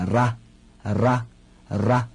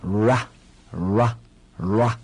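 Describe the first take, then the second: First: Ra with a trilled tongue-tip r; ra with a proper rolled r. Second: Ra said slowly with an English r, no trill; ra with an untrilled English r. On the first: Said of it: "真正的是念". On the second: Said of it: "只能念ra". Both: Shown as a demonstration.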